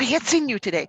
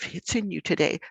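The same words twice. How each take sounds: First: It sounds strong and matches the child's intensity. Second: It sounds soft, disapproving and judging. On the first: The feeling is being seen and accepted. The speaker calls it right. "you say it with that same intensity" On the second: The feeling is being judged as bad. The speaker calls it wrong. "you're not like the, oh, ... Like that feels like a judgment"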